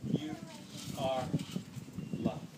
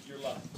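First: Each word set apart with long pauses, You, are, loved; slow emphatic stress. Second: Said in the usual way. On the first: Shown as a demonstration.

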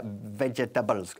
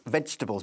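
First: "vegetables" in four syllables, ve-je-ta-bles; wrong pronunciation. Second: "vegetables" as vej-tuh-bulls; three-syllable pronunciation. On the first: Teacher warning learners, "vegetables" mispronounced in four syllables. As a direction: say "vegetables" wrongly, sounding every written vowel. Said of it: "que no se pronuncia". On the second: Teacher correcting to three syllables, "vegetables" as vej-tuh-bulls. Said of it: "sino tres". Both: Shown as a demonstration.

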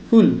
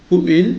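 First: "who'll" as one syllable; contracted form. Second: Said in the usual way. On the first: Shown as a demonstration. Teacher models the short form, "who'll" in one syllable. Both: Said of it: "যেমন".

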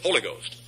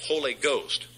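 First: "Holy Ghost" dropped low as one word, "HOLLA-ghost"; mocked mispronunciation. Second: Said in the usual way. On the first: Preacher imitating what the heretic gotta say, mangled "Holy Ghost". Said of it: "He gotta say". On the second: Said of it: "He can't say Holy Ghost".

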